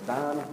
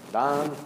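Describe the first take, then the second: First: Said in the usual way. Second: Attempted Scottish accent on the name. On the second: Professor addressing his former student by name, attempted Scottish accent. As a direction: lightly imitate a Scottish professor. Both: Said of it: "I'm gonna try to do it in a Scottish accent".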